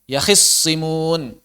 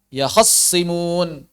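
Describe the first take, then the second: First: The vowel after kh is a short 'i'. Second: The vowel after kh is a short 'a'. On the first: "ikhtilasnya kasrah" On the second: "ikhtilasnya fathah"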